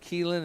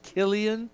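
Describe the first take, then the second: First: The name is said as Keelan. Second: The name is said as Killian. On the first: The speaker calls it wrong. "I said it wrong for three weeks. I've been calling him Keelan" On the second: The speaker calls it right. "His name is Killian"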